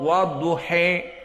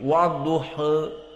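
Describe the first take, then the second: First: The final vowel leans strongly toward e. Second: The final vowel sits between a and e. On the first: "Kalau al-imalah al-kubra wadduhe" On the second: "Kalau at-taklil wadduhe"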